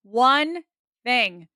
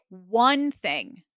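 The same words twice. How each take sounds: First: "One", pause, "thing", louder on One; very slow, simple. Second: Said in the usual way. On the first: Shown as a demonstration. Coach drumming one priority into students, very slow and simple. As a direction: break "One thing" into two slow, separate words. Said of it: "very slow and very simple". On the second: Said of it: "I'm gonna say this very slow".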